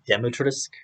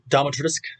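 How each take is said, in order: First: The first syllable is said as dim. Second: The first syllable is said as dom. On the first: The speaker calls it right. "It's D I M, so it's a Dimitrescu" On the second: The speaker calls it wrong. "as Ethan pronounced it, Domitrescu. Why why is it Dom?"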